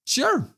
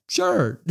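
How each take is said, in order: First: Noncommittal, drawn-out sure. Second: High-pitched, amused sure; amused shrug. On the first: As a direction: shrug it off with one word. Shrugging reply to the matchup. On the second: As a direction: toss it out higher, about to laugh. Repeats the shrug, then laughs. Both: Real, not acted.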